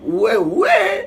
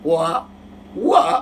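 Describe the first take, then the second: First: The word is said in another dialect, ending 'e'. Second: The word is said in the Thrissur dialect, ending 'a'. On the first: "എന്റെ ഭാഷയപ്പോ" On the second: "അത് തൃശ്ശൂർ ഭാഷയാ"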